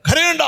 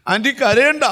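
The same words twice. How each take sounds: First: Short, high-pitched authoritative order; firm and abrupt, leaving no room for argument; strong command. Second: Imitating a mourner's comforting plea, rising at the end; mildly acted tearful comfort; tearful consoling. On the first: Acted. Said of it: "കർത്താവ് strong ആയിട്ട് പറയാം". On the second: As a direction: console a grieving mother, lightly mimicked. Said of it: "എന്ന് നമ്മൾ കരഞ്ഞുകൊണ്ട് പറയും".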